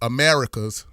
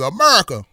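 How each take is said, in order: First: It is said in a standard accent. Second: It is said in a Memphis accent.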